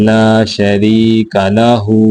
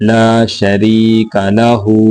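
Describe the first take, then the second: Both takes have the same delivery.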